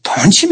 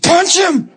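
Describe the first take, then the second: First: Rising, doubtful question; asking in disbelief. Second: Much higher, insistent order; firm command. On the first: Preacher doubting the Lord's order, a puzzled question. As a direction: check you heard it right. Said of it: "And I said". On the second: The Lord telling the preacher again, an insistent order. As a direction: repeat the order with no room for doubt. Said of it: "He said". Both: Retold or imitated.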